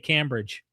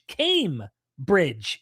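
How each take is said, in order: First: The first syllable does not sound like 'came'. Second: The first syllable sounds like 'came'. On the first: The speaker calls it wrong. "I used to say Cambridge" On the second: The speaker calls it right. "It's Cambridge, Came Bridge"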